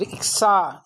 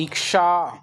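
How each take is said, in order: First: इच्छा said as ik-saa, with plain s; wrong pronunciation. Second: इच्छा said as eek-shaa, with sh; correct pronunciation. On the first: Teacher introduces the faulty form, wrong pronunciation. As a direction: use s after the k in इच्छा. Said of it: "इच्छा नहीं होता". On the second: Teacher answers her own question, correct pronunciation. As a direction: hush the sh after k in इच्छा. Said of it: "क्या होता है". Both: Shown as a demonstration.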